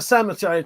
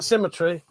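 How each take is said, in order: First: "symmetry" slipped into SAM-uh-tree; mispronounced symmetry. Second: Said in the usual way. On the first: Real, not acted. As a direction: say "symmetry" with a short A, like Sam, in the first syllable. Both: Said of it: "What's wrong with me?".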